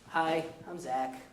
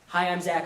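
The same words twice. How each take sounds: First: It is said in a sad-sounding voice. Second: It is said in a plain, neutral voice. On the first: The sadness is carried by the tone of voice. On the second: The sadness is carried only by the words. "I'm sad. This is one way to communicate emotion"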